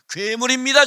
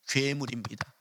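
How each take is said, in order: First: Loud, high 괴물입니다 with a rising end; loud declaration. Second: Soft, low 괴물입니다 with a falling end; quiet admission. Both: Shown as a demonstration. Preacher contrasts two deliveries.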